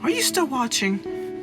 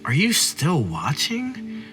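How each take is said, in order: First: The question is said in a neutral tone. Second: The question is said in a sassy tone.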